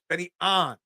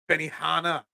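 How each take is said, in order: First: The surname sounds like 'On', one syllable. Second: The surname sounds like 'Hanna', with an h. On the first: The speaker calls it right. "I'm fixing your pronunciation" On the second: The speaker calls it wrong.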